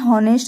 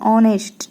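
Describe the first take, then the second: First: The word begins with an audible h sound. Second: The word begins directly with a vowel sound. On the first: The speaker calls it wrong. "हॉनेस्ट जो है वो गलत उच्चारण है" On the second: The speaker calls it right. "इसको हम बंद करके इसको हम ऑनेस्ट बोलते हैं"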